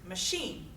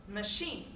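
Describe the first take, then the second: The two takes are said the same way.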